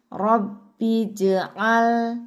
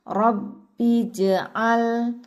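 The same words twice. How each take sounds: Both takes have the same delivery.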